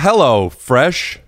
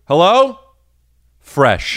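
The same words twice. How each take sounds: First: The two words run together without a pause. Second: There is a pause after hello.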